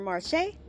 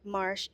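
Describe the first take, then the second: First: It is said with a French pronunciation. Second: It is said like the English word 'marsh'. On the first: "the French version" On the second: "that's how they're pronouncing it"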